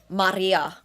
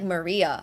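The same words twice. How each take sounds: First: The name is said with a Finnish pronunciation. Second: The name is said with an English pronunciation.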